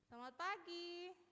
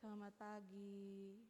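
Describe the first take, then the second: First: It is said lively, with high energy. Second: It is said sleepily, with low energy.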